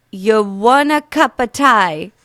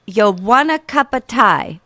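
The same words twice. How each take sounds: First: Slow British accent attempt. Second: Put-on amateur British accent. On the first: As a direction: ask it like a British local. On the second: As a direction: offer tea like a British local. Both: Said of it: "American girl doing real bad accents".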